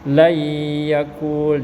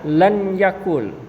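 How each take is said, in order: First: The n merges into a nasalized doubled y. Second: The n is pronounced separately before the y. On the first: The speaker calls it right. "dibacanya layyakul" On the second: The speaker calls it wrong. "Bukan dibaca lan yakul"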